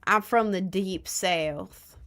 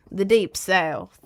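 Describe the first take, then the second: First: Slow, drawn-out mock Southern drawl, rising at the end; mock Southern accent. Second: Slow mock Southern accent, louder, with the stress on deep and falling. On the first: Joking to chat about her real voice, slow mock Southern drawl. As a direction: stretch it out in a put-on Southern accent. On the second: Repeating it to chat, louder slow mock Southern accent. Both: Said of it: "in a deep Southern accent".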